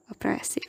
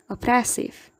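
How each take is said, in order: First: Oppressive, breathed with no voice; whispered oppressive. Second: Said in the usual way. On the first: Shown as a demonstration. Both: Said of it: "geminates are also many a times articulated".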